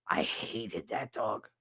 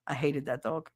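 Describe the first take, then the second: First: Lower, softer, slow, lingering on that; deep disgust. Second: Said in the usual way. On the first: Real, not acted. Repeating to viewers how much she hated the dog, low and slow. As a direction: sneer it out slowly.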